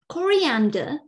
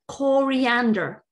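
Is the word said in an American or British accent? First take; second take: British; American. First: It is said in a British English accent. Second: It is said in an American English accent. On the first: "in British English" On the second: "or American English"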